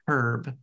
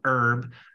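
First: The word starts with an audible H sound. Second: The word starts with a vowel, no H sound. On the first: It is the person's name. The speaker calls it right. "you say the H" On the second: It names the cooking plant. The speaker calls it wrong. "It's not like oregano or thyme, not herb"

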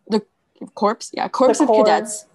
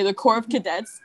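First: The P in 'Corps' is pronounced. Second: The P in 'Corps' is silent. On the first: The speaker calls it wrong. "You don't say the P" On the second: The speaker calls it right. "There's no P?"

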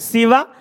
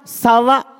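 First: The first vowel is an i sound. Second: The first vowel is an a sound.

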